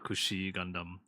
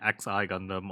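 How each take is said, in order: First: The first word is said as kushi. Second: The first word is said as letters X, I. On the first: The speaker calls it right. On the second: The speaker calls it wrong.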